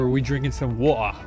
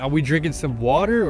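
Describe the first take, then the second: First: It is said in a British accent. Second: It is said in an American accent. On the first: "British English phrases" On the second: "more American phrases"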